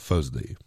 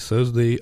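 First: It begins with an f sound, London style. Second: It begins with a th sound, standard English.

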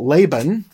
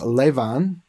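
First: The middle consonant is a b sound. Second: The middle consonant is a v sound.

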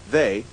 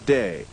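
First: The word begins with a th sound. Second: The word begins with a d sound. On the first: "the TH sound" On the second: "is replaced by a D sound"

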